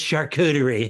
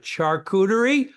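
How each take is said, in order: First: The word is pronounced the standard French way. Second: The word is pronounced in a garbled, unsure way. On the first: Someone else corrects the speaker. The speaker calls it right. "gave the wait person an opportunity to go, it's" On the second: The speaker did not know the word. The speaker calls it wrong. "I didn't even know how to pronounce it. I was like"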